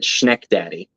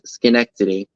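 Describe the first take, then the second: First: It is said like 'Schneck-Daddy', clipped and blunt. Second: It is said as 'Schenectady', with four syllables. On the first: The speaker calls it wrong. "I would have pronounced it Schneck-Daddy" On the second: The speaker calls it right. "So it says Schenectady"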